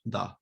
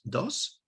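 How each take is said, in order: First: The word ends without an s sound. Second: The word ends with an s sound. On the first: "in a normal Eastern Andalusian Spanish" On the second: "pronounced like this, dos, with the uh, consonant at the end"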